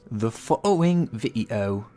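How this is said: It is spoken in a put-on British accent. "that was the shittiest accent"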